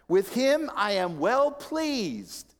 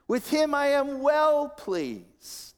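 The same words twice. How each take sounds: First: Slow, raised scripture quote; God's declaration. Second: Very high, slow, stretched proclamation; commendation. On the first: Preacher quoting God's words from Matthew, slow and raised. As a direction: declare it slowly, falling at the end. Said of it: "says Matthew". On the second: Preacher voicing God commending his Son, high and drawn out. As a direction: draw out the praise, high then falling. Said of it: "A note of commendation". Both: Retold or imitated.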